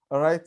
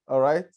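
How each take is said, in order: Both takes have the same delivery.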